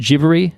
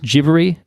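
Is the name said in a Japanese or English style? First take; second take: Japanese; Japanese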